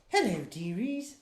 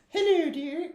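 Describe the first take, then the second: First: The put-on voice is pitched lower. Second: The put-on voice is pitched too high.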